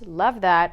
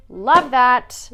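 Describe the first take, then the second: First: Said in the usual way. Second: Excited. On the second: Real, not acted.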